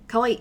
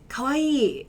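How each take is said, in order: First: The vowel is kept short. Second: The vowel is drawn out. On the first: The speaker calls it wrong. "I'm not just going to say" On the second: The speaker calls it right. "I have a bit of that elongation there"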